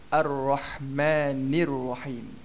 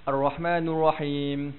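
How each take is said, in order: First: The vowel before Rahim sounds like 'i'. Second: The vowel before Rahim sounds like 'u'. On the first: The speaker calls it right. "Kena baca" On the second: The speaker calls it wrong. "jangan kita bunyi macam ni"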